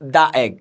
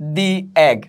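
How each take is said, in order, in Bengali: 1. 'The' উচ্চারিত হয় ছোট 'uh' শব্দ দিয়ে। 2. 'The' উচ্চারিত হয় লম্বা 'ee' শব্দ দিয়ে। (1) "নট দা এগ" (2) "তাহলে দি এগ"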